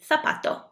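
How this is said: The z sounds like th, Spanish style.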